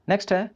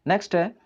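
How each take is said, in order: No difference in how they are said.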